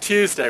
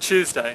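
First: It begins with a plain t sound. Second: It begins with a 'ch' sound.

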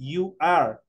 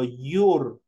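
First: It is said as two separate syllables. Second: It is said as one single syllable.

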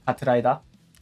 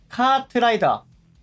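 First: The first vowel is kept short. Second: The first vowel is held long. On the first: This is how it is said in Korea. "韓国はそうやって長く伸ばせないんです。" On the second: This is not how it is said in Korea. "こんな言い方ではしないので"

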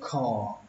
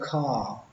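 First: The vowel sounds halfway between o and a. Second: The vowel sounds clearly like a. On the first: "nó một nửa là o một nửa là a, nó nằm giữa nhau đấy" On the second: "Cái cách thứ hai các bạn đọc là kha cũng được"

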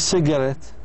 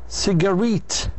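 First: The stress is on the first syllable. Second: The stress is on the last syllable. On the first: The speaker calls it wrong. "مش cigarette" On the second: The speaker calls it right. "لازم تحكي cigarette. يصير الضغط أو التركيز على"

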